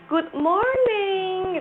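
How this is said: An American accent with the R clearly pronounced. "di Amerika good morning gitu. R-nya jelas"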